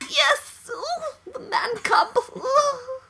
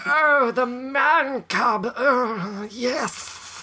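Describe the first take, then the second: First: It is said in a higher voice. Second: It is said in a lower voice.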